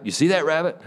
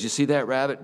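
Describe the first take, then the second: First: Much higher, pressing insistence; urgent repeat. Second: A little higher, insistent asking; pointed question. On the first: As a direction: push the question harder. Neighbor repeats, more urgent. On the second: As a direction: point at it and ask. Neighbor points at rabbit pen. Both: Retold or imitated.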